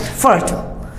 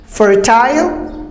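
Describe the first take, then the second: First: Fertile cut to FUR-tl, softer; American fertile, no I sound; American pronunciation. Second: Fertile slowly as FUR-tile; long I sound in fertile; British fertile, drawn out and rising; British pronunciation. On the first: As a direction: say fertile with a short schwa ending. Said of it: "Americans just cut it". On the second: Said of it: "British go for the I sound". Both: Shown as a demonstration.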